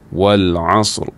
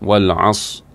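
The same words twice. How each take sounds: First: The word ends with an audible R sound. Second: The word ends without a final R sound. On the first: The speaker calls it right. "Sepatutnya Wal-Asr" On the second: The speaker calls it wrong. "Ra hilang"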